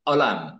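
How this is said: The word begins with a glottal stop. "disebutkan dengan hamzah ya"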